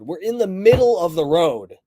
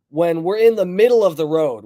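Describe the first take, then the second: First: Exasperated repeat with "middle" punched; insistent repeat. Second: Insistent, stressing "in"; emphatic correction. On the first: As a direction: stress on "middle", falling firmly on "middle of the road". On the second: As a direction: stress on "in", a firm falling tune on "in the middle". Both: Real, not acted.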